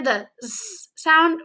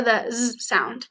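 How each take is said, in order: First: "Z" said as a long voiceless hiss, sss; S sound. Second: "Z" said as a voiced buzz, zzz; Z sound. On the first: Teacher asks which sound is heard, first one hissed as sss. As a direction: hiss it as sss, without any buzz. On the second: Teacher asks which sound is heard, "Z" buzzed as zzz. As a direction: buzz "Z" as zzz, without a vowel. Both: Shown as a demonstration. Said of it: "Do you hear the S or the Z?".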